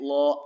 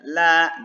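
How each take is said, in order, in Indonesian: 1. Bunyi 'l' ini berat dan tebal. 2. Bunyi 'l' ini ringan dan tipis. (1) "maka lamnya dibaca tebal" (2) "jadi ditipiskan"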